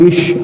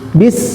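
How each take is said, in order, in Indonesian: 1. Kata ini berakhir dengan bunyi sh. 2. Kata ini berakhir dengan bunyi s biasa. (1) "Bukan bish, awas" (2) "Bis, ya"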